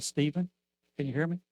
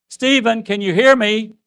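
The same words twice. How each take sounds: First: First quiet call; calling softly. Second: Shouted higher and louder; a father screaming to a son who can't hear. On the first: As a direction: call him gently, no answer expected. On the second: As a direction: yell his name so he must hear. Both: Retold or imitated. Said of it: "And I screamed".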